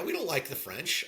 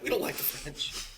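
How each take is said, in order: First: Said in the usual way. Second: Furtive whisper, as if not allowed; hushed whisper. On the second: Real, not acted. Co-host unsure he can still say it, whispering. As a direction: whisper it under your breath. Wary if it may be said.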